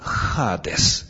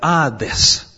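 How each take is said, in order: First: It begins with a breathy h sound. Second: It begins directly with the vowel, no breath. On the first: "с придыханием" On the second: "если не использовать придыхание"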